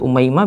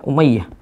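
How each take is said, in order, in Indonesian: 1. Nama ini diucapkan dengan bunyi m di tengahnya. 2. Nama ini diucapkan dengan bunyi y ganda di tengahnya. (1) "bisa jadi dibaca Umaymah" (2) "bisa jadi dibaca Umayyah"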